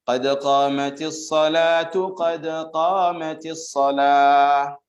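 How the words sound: The first phrase ends in -tu, joined to the next. "Tapi kalau dibaca sambung"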